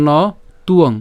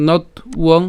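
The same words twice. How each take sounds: First: "ন তুয়ং" said as no, pause, tuong; "ন তুয়ং" with the break before the t; alternative pronunciation. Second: "নথ উয়ং" broken as not, then uong; "নথ উয়ং" with the w sound split off; split pronunciation. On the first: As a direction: leave "ন" open, then start "তুয়ং" on the t. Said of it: "অথবা". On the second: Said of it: "যেভাবে উচ্চারণ করেন". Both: Shown as a demonstration.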